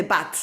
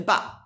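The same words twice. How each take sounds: First: "bat" with an audible final T; final T pronounced. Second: "ba" for bat, no final T; final T omitted. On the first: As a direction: release the T at the end of "bat". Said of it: "en vez de bat". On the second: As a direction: leave the T off the end of "ba". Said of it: "omit the T". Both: Shown as a demonstration.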